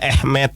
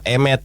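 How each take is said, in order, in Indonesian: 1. Kata ini diawali vokal 'a'. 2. Kata ini diawali vokal 'e'. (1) "cara bacanya" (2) "tulisannya secara literal"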